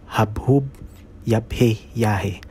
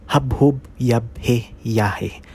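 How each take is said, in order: No difference in how they are said.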